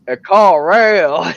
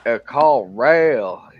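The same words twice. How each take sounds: First: Higher, much louder, slow drawled "A call rail"; exaggerated hillbilly drawl. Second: Slow, mumbled "A call rail" in a heavy backwoods drawl; mimicking a thick drawl. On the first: Retelling the Arby's cashier, hammed-up drawl louder. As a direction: ham up "A call rail" in a thick Arkansas drawl. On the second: Mimicking the Arby's cashier's heavy Arkansas drawl. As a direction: drag out "A call rail" like an unintelligible Arkansas clerk. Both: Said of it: "And he's like".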